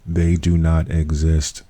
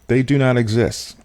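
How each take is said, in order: First: It is said very slowly. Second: It is said at a normal speed.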